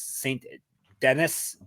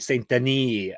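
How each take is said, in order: First: The name is said with an anglicized pronunciation. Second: The name is said with a native-sounding pronunciation.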